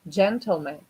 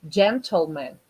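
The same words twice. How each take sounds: Both takes have the same delivery.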